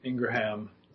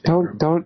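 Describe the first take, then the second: First: The name is said with three syllables. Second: The name is said with two syllables. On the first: It follows how the name looks in writing. The speaker calls it wrong. "that's how it looks like it's spelled" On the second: It follows how the name's owner says it. The speaker calls it right. "but it's Ingram"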